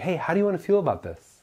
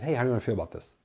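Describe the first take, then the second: First: It sounds enthused and excited. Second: It sounds flat and dismissive.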